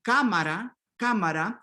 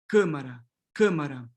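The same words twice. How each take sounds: First: Cámara with open Spanish a; Spanish cámara, wide a. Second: Câmara with closed nasal a before m; Portuguese câmara, raised a. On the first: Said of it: "in Spanish, you have A". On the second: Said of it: "closing this A to câmara". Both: Shown as a demonstration.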